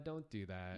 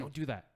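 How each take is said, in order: First: It is said in a calm tone. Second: It is said in an angry tone.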